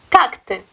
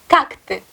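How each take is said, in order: The two takes are said the same way.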